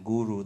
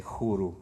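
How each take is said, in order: First: Said in the usual way. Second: "khuru" with a breathy kh for the g; southern Russian accent. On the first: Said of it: "people speak with some accent ... instead of saying guru". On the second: Shown as a demonstration. Showing how Caucasus people say guru, "khuru" with kh. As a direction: say "khuru" with a soft throaty kh opening. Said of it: "they say khuru".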